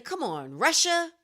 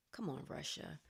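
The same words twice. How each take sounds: First: Loud, higher exasperated plea; exasperated call-out. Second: Much softer, lower, deadpan disgust; weary mutter. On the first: Host scolding Russia over the ad, exasperated loud call. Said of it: "It makes me say". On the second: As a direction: say it under your breath, worn out. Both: Acted.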